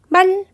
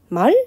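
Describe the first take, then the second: First: The word is short on one even pitch. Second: The word starts low, rises and is lengthened. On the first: "평성이나 거성으로 하면 그냥 한 번의 소리를 낼 수 있는데" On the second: "처음에 낮았다가 높아지려면 어쨌든 아무리 빨리 해도 말 하면서 약간은 길어지거든요"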